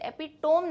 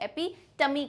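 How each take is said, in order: First: It is said with three syllables, ending 'tohm'. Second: It is said with four syllables, ending 'tuh-mee'. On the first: The speaker calls it wrong. "इसे एपिटोम नहीं कहते" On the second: The speaker calls it right. "इसे एपिटमी कहते हैं"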